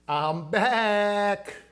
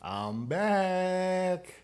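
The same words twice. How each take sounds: First: It is said in an imitated celebrity voice. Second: It is said in a normal speaking voice.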